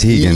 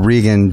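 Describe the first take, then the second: First: The name begins with an H sound. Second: The name begins with an English R sound. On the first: The speaker calls it right. "but the real pronunciation is Hegan" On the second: The speaker calls it wrong. "I'm calling you Regan"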